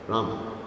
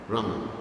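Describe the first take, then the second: The two takes are said the same way.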